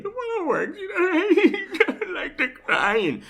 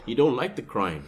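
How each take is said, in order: First: Very high, squeaky mock sob; mock crying. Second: Said in the usual way. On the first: Host tells friend why men give in, in a mock crying voice. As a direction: whine it as hammed-up waterworks, half laughing. Parodies the waterworks while talking.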